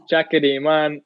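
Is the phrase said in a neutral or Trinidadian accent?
Trinidadian. It is said in a Trinidadian accent.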